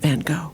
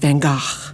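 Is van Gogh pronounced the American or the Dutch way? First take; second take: American; Dutch. First: The name is said the American Hollywood way. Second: The name is said the Dutch way. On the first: "In Hollywood, he was Vincent van Gogh" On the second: "In nineteenth century Netherlands, he was Van Gogh, which is the correct pronunciation"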